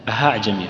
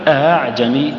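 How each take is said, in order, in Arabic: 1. الهمزة الثانية تُنطق كهاء خفيفة فيها نفَس. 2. الهمزة الثانية مسهّلة ومجهورة. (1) "بعض الناس يخطئ فيها المسهلة وينطقها هاء" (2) "الهمزة المسهلة تكون مجهورة لأنك تجد لها أثر في الصدر"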